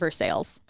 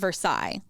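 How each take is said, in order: First: It is pronounced the local Kentucky way. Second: It is pronounced the standard French way. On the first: This is how locals in Kentucky say it. "because it's Kentucky, they call it Versailles" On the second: This is the famous French palace name. "it's called Versailles"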